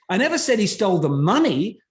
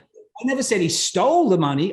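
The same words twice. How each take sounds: First: The word "money" carries the strongest stress. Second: The word "stole" carries the strongest stress. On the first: He stole something else. "what else did he steal at this point?" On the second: He took it some other way. "Okay, he borrowed it"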